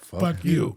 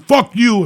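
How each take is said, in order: First: It is said in a friendly, smiling tone. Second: It is said in a harsh, hostile tone. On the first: The insult is said without hate. The speaker calls it right. "say it with a smile on your face" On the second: The insult is meant with real hate. The speaker calls it wrong. "Me telling you"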